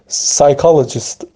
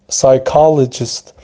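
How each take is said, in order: First: The word begins with an S sound. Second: The word begins with an S sound.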